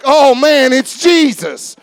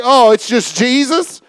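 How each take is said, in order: First: "Oh, man, it's Jesus" slowed down, with "Jesus" drawn out in wonder; awed. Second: "Oh, it's just Jesus" tossed off lightly, no weight on "Jesus"; bored, casual. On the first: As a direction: say it like you can't believe He's here. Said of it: "we should always be like". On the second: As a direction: shrug it off as ordinary. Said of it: "I don't want to get to that place where it's like". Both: Shown as a demonstration.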